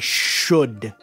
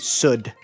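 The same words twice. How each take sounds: First: The word is clearly and carefully enunciated. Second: The word is garbled and unclearly pronounced. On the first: This is how it was taught in speech therapy. The speaker calls it right. "no, you must say should" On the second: This is how it was said as a child. The speaker calls it wrong. "I would say should"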